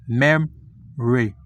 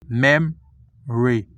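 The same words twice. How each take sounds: The two takes are said the same way.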